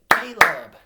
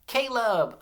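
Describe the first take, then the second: First: Caleb in two very loud beats; clapped syllables. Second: Caleb high and loud, in one piece; high, loud Caleb with a falling end; name called out. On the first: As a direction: clap out Ca-leb, a beat per syllable. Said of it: "Let's clap it". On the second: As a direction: call out Caleb whole for the class to echo. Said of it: "say this name with me". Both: Shown as a demonstration.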